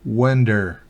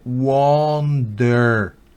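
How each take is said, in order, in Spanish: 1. La primera vocal suena más cerca de e. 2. La primera vocal suena como una o redondeada. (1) "es más hacia when" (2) "no wonder"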